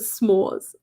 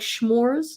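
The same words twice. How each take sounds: First: The word begins with a plain 's' sound. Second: The word begins with a 'sh' sound.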